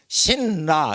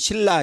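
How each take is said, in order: First: The first syllable ends in an N sound. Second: The first syllable ends in an L sound. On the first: The speaker calls it wrong. "이렇게 안 하고" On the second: The speaker calls it right. "이렇게 하듯이 사람들이 편하게 발음하기 때문에"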